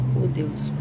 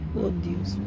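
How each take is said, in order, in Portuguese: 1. A primeira palavra tem uma vogal parecida com U. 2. A primeira palavra tem uma vogal parecida com U.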